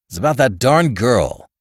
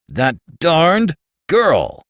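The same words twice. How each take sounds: First: Said in the usual way. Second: Put-on that darned GIRL, louder, slow and dragged out; emphatic repeat. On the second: A narrator's reading. Bill repeating himself to a startled Archie, exasperated. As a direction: lean hard on every word.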